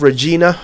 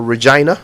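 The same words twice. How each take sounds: First: Regina said re-JEE-na; long "ee" in the middle of Regina. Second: Regina said re-JYE-na; Regina with "eye". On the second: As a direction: middle of Regina rhymes with "eye". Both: Shown as a demonstration. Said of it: "which one is it?".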